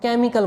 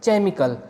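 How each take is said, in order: First: The word starts with a k sound. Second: The word starts with a ch sound. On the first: The speaker calls it right. "इसको हम केमिकल बोलेंगे। इसमें भी एच की कोई sound नहीं आएगी।" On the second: The speaker calls it wrong. "अगर इसमें एच की साउंड आती तो हम इसको कहते"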